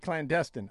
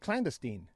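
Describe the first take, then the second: First: The stress falls on the middle syllable. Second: The stress falls outside the middle syllable. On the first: "I like to put the emphasis on the destin" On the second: "in England they say clandestine"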